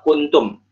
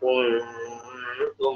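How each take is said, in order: First: The n sound is pronounced clearly. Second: The n sound is hidden and nasalized. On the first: The speaker calls it wrong. "kan kita baca nggak kuntum" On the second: The speaker calls it right. "nunnya dibaca ikhfa, dibaca samar"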